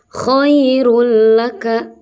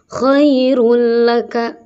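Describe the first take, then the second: First: The n merges fully into the following l. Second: The n merges fully into the following l.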